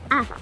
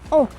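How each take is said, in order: First: The name is said with an 'ah' vowel. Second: The name is said with an 'oh' vowel. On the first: The speaker calls it wrong. "no es A" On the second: The speaker calls it right. "se llama O"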